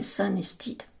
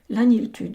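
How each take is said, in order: First: The place name is said with a Welsh pronunciation. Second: The place name is said with a French pronunciation. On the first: "se prononcerait San-Estide" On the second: "de même que son monastère"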